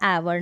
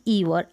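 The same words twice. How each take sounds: First: एवर starting with an "e" sound; short-E pronunciation. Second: ईवर starting with long "ee"; wrong long-E reading. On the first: Teacher reads out the Hindi spelling, "e" at the start of एवर. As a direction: say एवर as "e-var", not "ee-var". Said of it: "Hindi में लिखा है एवर". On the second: Teacher rejects the misreading for learners, long-ee ईवर. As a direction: say ईवर as "ee-var". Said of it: "ना कि ईवर". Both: Shown as a demonstration.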